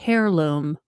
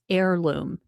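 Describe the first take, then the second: First: It begins with an h sound, like hair. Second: It begins with a vowel, no h sound. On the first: The speaker calls it wrong. "not heirloom" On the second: The speaker calls it right. "So it's heirloom"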